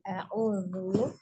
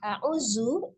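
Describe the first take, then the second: First: The middle consonant is a soft voiced th. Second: The middle consonant is a buzzing z sound. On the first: The speaker calls it right. "tapi huruf zal" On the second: The speaker calls it wrong. "Jangan terbaca a'udzu, jangan terbaca huruf zai"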